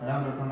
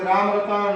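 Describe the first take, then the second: First: The vowels are short and quick. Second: The vowels are held somewhat longer. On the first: The call is too weak to carry far. "हास और स्वर की आवाज में" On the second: The call is still too weak to carry far. "दीर्घ स्वर में बोलोगे"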